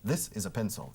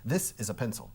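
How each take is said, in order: First: It is said in a neutral American accent. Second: The same.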